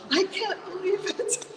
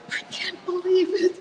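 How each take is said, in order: First: High, laughing, rising at the end; laughing disbelief. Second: High, giddy disbelief near tears; can't believe it. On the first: Repeating the news to herself, laughing in delight. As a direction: giggle the words out in delight. Excited alone at home after the offer. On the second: Alone at home after the house-sit offer, giddy and overwhelmed. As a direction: squeal it out, overwhelmed with joy. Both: Retold or imitated.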